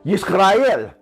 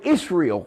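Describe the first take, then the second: First: The name is said from the back of the throat. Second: The name is said plainly, without throat sounds. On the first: The speaker calls it right. "correct pronunciation would be Yisrael, because we speak from the back of our throats, gutterish" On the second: The speaker calls it wrong. "some call it Israel"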